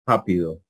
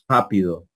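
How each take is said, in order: Both takes have the same delivery.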